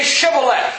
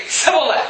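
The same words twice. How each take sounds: First: Shibboleth opened with SH; correct pronunciation. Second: Sibboleth, higher, with S for SH; mispronunciation. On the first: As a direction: start "Shibboleth" on a hushing sound. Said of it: "well, say Shibboleth". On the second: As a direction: say "Sibboleth" higher, starting on a plain S. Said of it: "they could not pronounce". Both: Acted.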